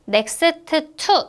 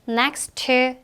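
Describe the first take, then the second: First: The t sound is pronounced twice, separately. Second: The t sound is pronounced once, linked. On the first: The speaker calls it wrong. "이렇게 읽지 않고요" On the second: The speaker calls it right. "to는 한 번만 발음해 주시면 돼요"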